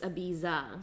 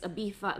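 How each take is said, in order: First: It is said with an English pronunciation. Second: It is said with a Spain Spanish pronunciation. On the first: "But if you're saying it like English" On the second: "if you're saying it in the Spanish accent or you're speaking it in Spain Spanish"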